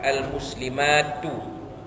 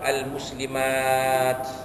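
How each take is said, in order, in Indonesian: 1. Kata ini berakhir dengan vokal pendek setelah t. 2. Kata ini berakhir dengan bunyi t tanpa vokal. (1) "kalau sambung" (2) "Kalau matikan waqaf"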